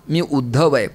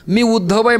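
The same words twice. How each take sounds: First: Said in the usual way. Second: आहे lifted high and proud, rising at the end; arrogant self-introduction. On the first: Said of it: "म्हटल्याबरोबर त्यांना कळलं". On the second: Shown as a demonstration. Uddhav announces himself to the gopis with arrogance. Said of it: "हा कोणीतरी अहंकारी आहे".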